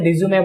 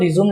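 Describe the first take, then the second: First: The word ends with an 'ay' vowel. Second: The word ends on the consonant 'm'. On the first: The speaker calls it right. "उसे रिज्यूमे बोलते हैं" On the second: The speaker calls it wrong. "एक्चुअल में वो रिज्यूम नहीं बोला जाता"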